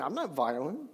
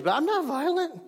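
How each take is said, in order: First: Low, soft and deadpan; deadpan quiet. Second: High mock-innocent protest; sarcastic. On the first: Pretend. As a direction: drop it to a dry, quiet denial. Ironic self-justification after hating someone. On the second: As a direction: say it with a raised, ironic pitch. Ironic self-justification after screaming at kids.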